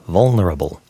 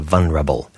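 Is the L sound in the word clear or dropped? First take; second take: clear; dropped. First: The L sound is clearly pronounced. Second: The L sound is dropped.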